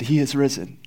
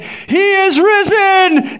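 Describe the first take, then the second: First: Softer, hushed first "He is risen."; quiet proclamation. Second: "He is risen." called out much higher and slowly, drawn out; raised voice. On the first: Old priest first tells the townspeople, softly. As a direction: say "He is risen." gently, nearly to himself. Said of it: "he said". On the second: Old priest's third call to the townspeople, loud and high. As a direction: proclaim "He is risen." at full voice, stretching every word. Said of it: "he raised his voice". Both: Acted.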